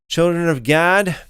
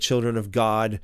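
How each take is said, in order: First: The name's vowel sounds like the one in 'cat'. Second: The name's vowel sounds like the one in 'father'. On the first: This follows the conventional English pronunciation. "I'll stick with the children of Gad here" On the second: This follows the Hebrew pronunciation. "more pronounced like God"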